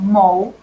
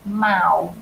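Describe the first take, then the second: First: The vowel sounds like 'oh'. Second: The vowel sounds like 'ow'. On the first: The speaker calls it wrong. "it's not mo" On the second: The speaker calls it right. "but it's mao"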